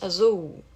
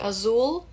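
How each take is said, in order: First: The final L sounds like a U. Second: The final L is a clear L sound. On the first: "a gente diz azul. Ele vira um U em português" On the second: "ao invés de dizer azul"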